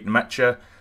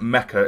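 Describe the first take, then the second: First: The name ends with a 'ch' sound. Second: The name ends with a 'k' sound. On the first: The speaker calls it right. "You actually do pronounce the N and it's Ch at the end" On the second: The speaker calls it wrong. "I was calling this gentleman Mecca in the last episode"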